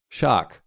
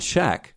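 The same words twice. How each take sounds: First: "Shark" with a long, open ah; "Shark" in the speaker's own accent, drawn-out vowel; own-accent pronunciation. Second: "Shaq" with a short, flat a as in cat; "Shaq" the American way, short vowel; American pronunciation. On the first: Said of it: "That's my accent". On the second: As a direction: say "Shaq" to rhyme with back. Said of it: "I'm not American. That's my accent". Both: Shown as a demonstration.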